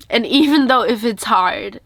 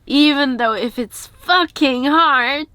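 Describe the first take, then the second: First: Said in the usual way. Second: "fucking" leaned on slowly, rising; slower, heavy push on "fucking"; stress on fucking. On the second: Real, not acted. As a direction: drag out "fucking hard" to insist. Restating the point with emphasis.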